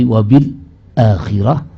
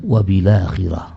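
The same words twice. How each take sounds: First: A brief stop comes before the second word. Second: The words run together with no stop. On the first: "dengan saktah" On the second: "atau dengan nakal"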